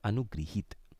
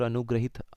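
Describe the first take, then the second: First: The second syllable is said as 'gri'. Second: The second syllable is said as 'gra'. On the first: The speaker calls it right. "क्या होता है, अनुगृहीत" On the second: The speaker calls it wrong. "अनुग्रहित हम ऐसे बोल देते हैं"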